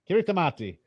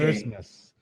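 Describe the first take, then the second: First: The 'ti' is said with a T sound. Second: The 'ti' is said with an S sound. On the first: The speaker calls it wrong. "you would probably pronounce that as Kiritimati" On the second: The speaker calls it right. "The T I is S, S sound"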